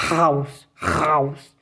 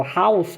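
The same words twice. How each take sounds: First: "house" begun with a throaty scrape; wrong guttural H. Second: "house" with a light breath on the H; clean H. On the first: Teacher showing learners the mistake, guttural H. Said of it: "pronunciar o H gutural". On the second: Teacher showing the correct H, clean. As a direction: open "house" with no throat friction. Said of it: "é limpo". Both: Shown as a demonstration.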